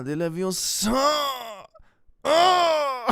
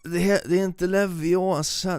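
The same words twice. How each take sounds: First: "Leviosa" stretched with a rising high shout; the right "Leviosa", loud and squeaky, then a wail; Hermione correction. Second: "inte Leviosa" said high, in a mock southern Swedish lecturing voice; Hermione correction. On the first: Retold or imitated. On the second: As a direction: correct the wrong "Leviosa" sternly, squeaky high. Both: Mocking Hermione's spell correction in southern Swedish. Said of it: "like, southern Swedish".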